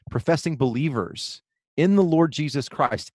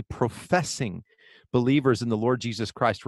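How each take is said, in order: First: Said in the usual way. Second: "professing" spoken deliberately, then a short pause; stress on PROFESSING. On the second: Real, not acted. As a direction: set the word "professing" apart before "believers". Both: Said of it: "I want to emphasize the word professing".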